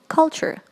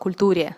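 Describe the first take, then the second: First: The ending is pronounced like 'cher'. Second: The ending is read out as spelled, 'ture'. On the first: The speaker calls it right. "what you should say instead is you should say culture" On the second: The speaker calls it wrong. "как одна девочка сказала «культуре». And this was a very, very huge mistake"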